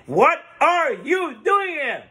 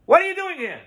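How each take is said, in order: First: High, slow, word-by-word shout; acted scream. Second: High, loud scolding shout; acted scream. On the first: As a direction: hammer out each word in a raised voice. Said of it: "screams to him again". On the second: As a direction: shout a startled demand at the son-in-law. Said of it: "he screams to his son-in-law".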